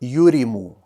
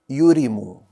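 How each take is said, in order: First: The first syllable has the vowel u. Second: The same.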